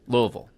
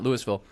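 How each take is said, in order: First: The name is said the way locals say it. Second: The name is said the way outsiders say it. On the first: The speaker knows the area. The speaker calls it right. "That's how you say it" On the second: The speaker is not from the area. The speaker calls it wrong. "it's certainly not Louisville"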